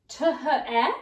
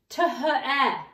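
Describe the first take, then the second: First: Each letter sound is read out separately. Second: The same.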